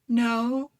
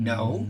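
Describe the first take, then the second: First: It is said in a light, uncertain, hesitant voice. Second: It is said in a deep, firm, grounded voice.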